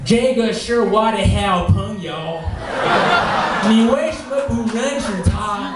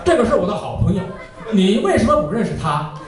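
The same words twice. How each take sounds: First: 这个是我的好朋友 said slowly with flat, stiff tones, 为什么 stretched and rising; wrong Mandarin. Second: 这个是我的好朋友 said quickly with natural native tones; 你为什么不认识他 fluent and fast, crisp tones; correct Mandarin. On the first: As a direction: drawl 你为什么不认识他 out slow and tonally wrong. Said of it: "you must not sound like this". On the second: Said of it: "That's how it's supposed to be". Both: Shown as a demonstration.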